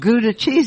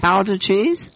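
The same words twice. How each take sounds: First: Gouda is said with an American pronunciation. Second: Gouda is said with a Dutch pronunciation. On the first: "instead of Gouda cheese" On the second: "That's how they would pronounce it"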